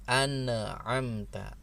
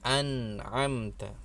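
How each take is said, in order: First: The n is released with a bouncing echo. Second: The n is said clearly without bouncing. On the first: The speaker calls it wrong. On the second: The speaker calls it right.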